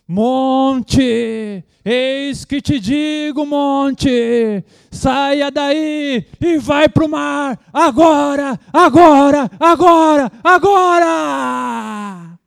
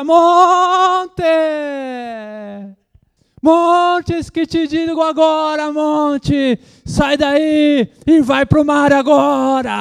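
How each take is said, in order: First: High, slow, shouted commands to the mountain; booming pentecostal rebuke, building to a yell on agora; hammed-up preacher commanding the mountain; mock voice of authority. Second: Very high, loud, slow commanding yell; hammed-up authoritative rebuke, high and loud; mock pentecostal shout. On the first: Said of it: "Fazer uma voz mais, mais de autoridade". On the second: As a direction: stomp and shout at the mountain. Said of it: "sapatear diante do monte".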